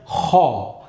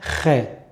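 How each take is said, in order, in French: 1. La syllabe est articulée fortement, avec un accent marqué. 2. La syllabe est articulée légèrement, sans accent. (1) "on va accentuer très fortement l'articulation" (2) "on va pas dire khe"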